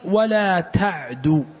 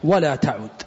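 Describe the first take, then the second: First: The verb is voweled as ta'du. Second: The verb is voweled as ta'ud. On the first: Do not run or hurry. The speaker calls it wrong. "يعني ولا تسرع ولا تهرول" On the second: Do not repeat such an act again. The speaker calls it right. "الصحيح في ضبطها هو هذا الذي ذكره الحافظ بن حجر"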